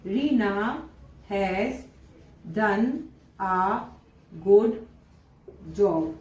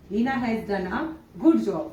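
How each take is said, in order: First: Each word set apart by long pauses. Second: Said in the usual way. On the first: Shown as a demonstration. Teacher dictating the exam sentence to students, word by word with pauses. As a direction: dictate it slowly, one word at a time. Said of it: "example आपके exam में कुछ इस तरह से दिया जाएगा". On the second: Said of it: "इस तरह से आपको सेंटेंस दिया जाएगा".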